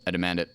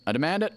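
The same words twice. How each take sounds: First: Said in the usual way. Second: Higher, rising playful demand; a hammed-up petulant demand; mock insistence. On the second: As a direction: repeat it like a pouty kid insisting. Repeats demand, second pushed up.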